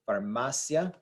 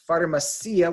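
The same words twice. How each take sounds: First: The stress is on the syllable 'ma'. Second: The stress is on the 'i' sound. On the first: The speaker calls it right. "The I and the A blend together to make a single syllable" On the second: The speaker calls it wrong. "which so many people do incorrectly"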